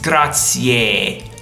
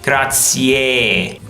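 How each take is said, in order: No difference in how they are said.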